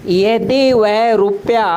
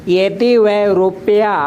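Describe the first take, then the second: No difference in how they are said.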